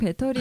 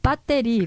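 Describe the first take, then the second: First: The word is said plainly without extra force. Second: The word is said with strong, forceful emphasis. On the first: This is the ordinary way to say it. "보통 그냥 배터리 이렇게 얘기하시는데" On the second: The word is being stressed as important. "배터리 뭐 이렇게 강조하시길래"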